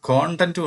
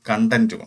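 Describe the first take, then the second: First: The first vowel sounds like an open 'o'. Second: The first vowel sounds like a short 'a'. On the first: It means the contents of something. "കണ്ടന്റ് നമുക്ക് രണ്ട് രീതി ഉച്ചരിക്കാം" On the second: It means satisfaction. "അത് രണ്ടിനും പ്രത്യേകം അർത്ഥമാണ്"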